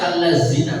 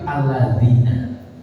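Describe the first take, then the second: First: The middle consonant is a plain z sound. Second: The middle consonant is a soft th sound. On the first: The speaker calls it wrong. "tidak allazina" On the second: The speaker calls it right. "dal besar ... tapi alladzina"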